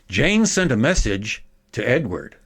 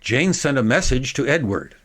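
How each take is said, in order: First: A long pause follows the direct object. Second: It is faster, with only a slight break. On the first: "making a big pause after the direct object" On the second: "at a quicker speed. I'll eliminate the, the dramatic break"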